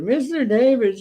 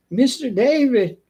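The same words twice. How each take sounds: First: High Mister David, falling on David; imitating the old lady. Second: High, slow Mister David dropping on David; imitating the old lady. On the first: Pest guy repeats the customer's call, high-pitched. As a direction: say his name again her way, up high. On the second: Pest guy mimics the customer calling him, high and slow. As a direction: copy her singsong way of saying his name. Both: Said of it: "That's the way she says it".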